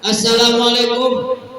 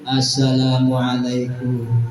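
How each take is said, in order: First: It is said strongly and loudly. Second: It is said weakly and softly, like a beggar.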